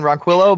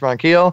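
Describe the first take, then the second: First: The name is pronounced with English-style sounds. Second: The name is pronounced with Spanish-style sounds. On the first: The speaker calls it wrong. "I keep saying Ronquillo" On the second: The speaker calls it right. "in Spanish it's Ronquillo"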